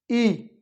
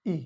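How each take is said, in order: First: Long ई held out with a touch more stress; teacher shows the long ई against the short one. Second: Short इ said lightly and briefly; a quick, unstressed ई; teacher shows the short इ vowel. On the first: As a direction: draw the ई out long. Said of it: "दीर्घ स्वर है, यानी बड़ी ई है ये". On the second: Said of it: "यानी इसमें कम जोर देके बोला जाता है ई". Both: Shown as a demonstration.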